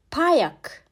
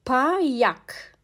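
First: Said in the usual way. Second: "Payak" stretched out as Pa-yak; syllable-by-syllable pronunciation. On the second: Shown as a demonstration. Teacher showing the letter P in "Payak", syllable by syllable. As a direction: hold the first syllable of "Payak", then give yak. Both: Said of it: "P harfi".

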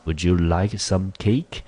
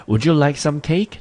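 First: Slow, steady teaching read of the question; slow reread. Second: Much higher, bright questioning offer of cake; lively offer. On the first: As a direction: read it slowly for the class. Teacher rereads dialogue line slowly. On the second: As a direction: act the host, pitched way up. Teacher reads dialogue line aloud. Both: Shown as a demonstration.

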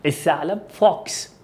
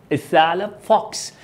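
Both takes have the same delivery.

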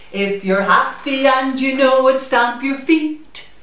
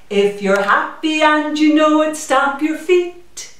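No difference in how they are said.

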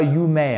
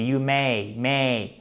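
First: "may" with one pure eh vowel, no glide; mispronounced "may". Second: "may" with a full glide from eh to ee; diphthong in "may". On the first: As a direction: say "may" wrongly, as a flat monophthong "meh". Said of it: "c'est pas you may". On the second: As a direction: say "may" correctly, gliding through the ay diphthong, softer. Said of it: "ceci est une diphtongue". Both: Shown as a demonstration.

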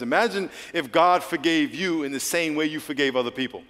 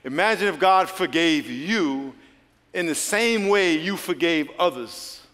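First: Said in the usual way. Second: Slower, with a pause for emphasis; slow it down and let the pause land. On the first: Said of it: "I'm gonna say it again slow". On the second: Shown as a demonstration. Preacher repeating his line slowly to the congregation. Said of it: "I'm gonna say it again slow, then I'm gonna pause for emphasis".

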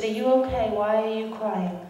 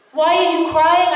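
First: Soft, hushed mother's question; gentle concern. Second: Higher and louder, disbelieving repeat; incredulous echo. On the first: Retold or imitated. Mother of Gaza asking the crying visitor, softly concerned. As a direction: ask gently, almost under the breath. Mother comforts the weeping speaker. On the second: Real, not acted. Speaker echoing the mother's question to the audience, incredulous. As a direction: throw the question back at the crowd.

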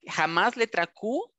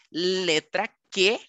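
First: Q said as ku, the word to avoid; never say letra Q as ku; spelled letter. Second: Q said as ke, slowly; slow demo saying Q as ke; spelled letter. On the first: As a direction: warn against saying Q as ku. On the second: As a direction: say letra Q slowly as ke. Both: Shown as a demonstration. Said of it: "porque es una grosería".

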